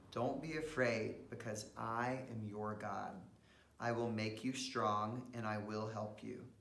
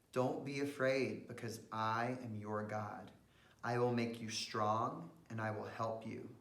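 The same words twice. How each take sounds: The two takes are said the same way.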